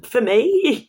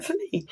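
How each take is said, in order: First: High, loud disbelieving question; can't believe the gift is for you; stunned and touched; astonished. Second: Very high, soft, wide-eyed little voice; a tiny, overawed Muppet gasp; Muppet character gushing. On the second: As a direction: squeak it like a grateful Muppet. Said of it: "he's like". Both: Retold or imitated.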